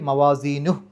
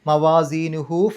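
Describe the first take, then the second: First: The word stops on a bare h sound. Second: The word ends with a lengthened u vowel. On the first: The recitation stops here. "ഹ എന്ന് സുക്കൂനിട്ട് നിർത്തുക" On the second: The recitation continues into the next verse. "രണ്ടക്ഷരത്തിൻ്റെ ദൈർഘ്യം നീട്ടണം"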